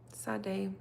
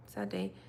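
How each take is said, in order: Both takes have the same delivery.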